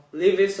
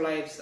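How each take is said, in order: First: "Lives" said as LIV-iss; "Lives" pronounced like "Livis"; two-syllable "Lives". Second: "Lives" said to rhyme with fives; "Lives" as the plural of life; long-i "Lives". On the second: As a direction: say "Lives" as one syllable, long i. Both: Shown as a demonstration. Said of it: "I don't know how to pronounce it".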